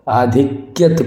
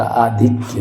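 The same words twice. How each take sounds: First: आधिक्यत with an extra final t; wrong added t. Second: आधिक्य ending on "kya"; correct form without t. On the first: Teacher rejects आधिक्यत, with a t stuck on the end. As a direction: say आधिक्यत as "aadhikyat". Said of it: "आधिक्यत कुछ नहीं होता". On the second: Teacher gives the correct आधिक्य, no t at the end. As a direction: say आधिक्य slowly as "aa-dhik-ya". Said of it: "आधिक्य होता है". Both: Shown as a demonstration.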